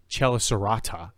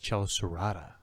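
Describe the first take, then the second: First: The T is a clear, crisp T sound. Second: The T is a soft flap like D. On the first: The speaker calls it wrong. "it's not Chelicerata" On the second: The speaker calls it right. "A flap, it's like a D"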